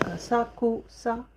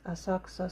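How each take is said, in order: First: The u in ku is fully voiced. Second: The u in ku is very soft. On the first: The speaker calls it wrong. "it's written like Asakusa" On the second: The speaker calls it right. "pronounce it very light ku"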